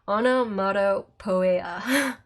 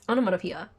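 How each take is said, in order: First: Each syllable is sounded out the way it is spelled. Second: The word is pronounced in its ordinary, usual way. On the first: The speaker calls it wrong. "I always pronounce it weird when I'm trying to spell it out" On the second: The speaker calls it right. "it's onomatopoeia"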